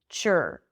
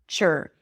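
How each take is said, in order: No difference in how they are said.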